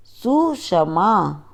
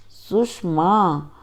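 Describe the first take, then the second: First: सुषमा with a plain s, "susama"; wrong pronunciation. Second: सुषमा with a retroflex sh, "sushma"; correct pronunciation. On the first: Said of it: "अशुद्ध उच्चारण अलग तरीके से होता है". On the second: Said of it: "शुद्ध उच्चारण अलग तरीके से होता है". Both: Shown as a demonstration.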